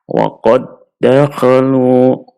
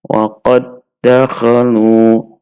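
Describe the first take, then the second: First: The first d merges into a doubled second d. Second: The same.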